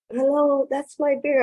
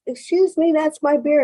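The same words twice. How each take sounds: First: High, fed-up "Hello" from the stranger; losing patience, pitched up; exasperated stranger. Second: High, polite stranger pointing out his beer; mock-polite claim, pitched well up; polite man at the bar. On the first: Retold or imitated. Man at the bar, fed up, demands his beer back. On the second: Man at the bar tells the speaker it's his beer, high and polite.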